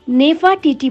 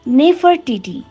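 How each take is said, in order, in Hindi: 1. यह ब्रिटिश उच्चारण में कहा गया है। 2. यह अमेरिकी उच्चारण में कहा गया है। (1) "अंग्रेज लोग इसे नेफाटीटी बोलते हैं" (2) "अमेरिकी लोग बोलते हैं"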